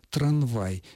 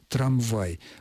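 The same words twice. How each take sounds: First: The consonant before the v is an n sound. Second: The consonant before the v is an m sound. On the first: This is a colloquial, nonstandard form. The speaker calls it wrong. "просторечный вариант" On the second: This is the standard form. The speaker calls it right. "Правильное произношение так, как я только что произнес"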